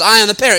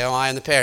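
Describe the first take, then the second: First: It sounds firm and convinced. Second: It sounds hesitant and unconvincing.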